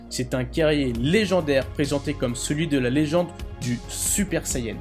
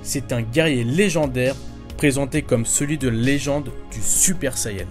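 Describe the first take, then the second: First: The voice sounds clearer but a bit quieter. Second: The voice sounds louder but less clear. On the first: The speaker calls it right. "le son est beaucoup plus clair sur le Rode" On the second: The speaker calls it wrong. "on m'entend plus fort sur le micro-cravate"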